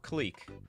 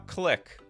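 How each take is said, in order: First: The vowel is long, like in 'cleek'. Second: The vowel is short, like in 'click'. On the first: "Or Cleek" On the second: "What do you guys think? Cleek or Click?"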